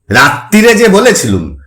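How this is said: It is said mockingly, mimicking her voice.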